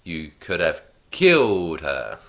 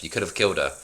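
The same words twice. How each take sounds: First: Slow, with killed drawn out and stressed; overdramatic. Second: Said in the usual way. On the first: Acted. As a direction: lay it on thick, leaning on killed. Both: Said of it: "could you be more dramatic?".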